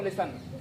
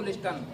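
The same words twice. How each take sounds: First: लिसन with no t sound; silent T. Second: लिस्टन with the T pronounced; sounded T. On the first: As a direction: say listen as लिसन, T left silent. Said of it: "क्या बोलना है इसको". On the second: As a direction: mispronounce listen as लिस्टन, t after the s. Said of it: "हमको लिस्टन नहीं बोलना". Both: Shown as a demonstration.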